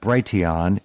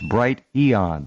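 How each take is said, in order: First: It is run together as one blended word. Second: It is said as two words, bright and eon. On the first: The speaker calls it wrong. "it's not Brighteon" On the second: The speaker calls it right. "it's Bright Eon"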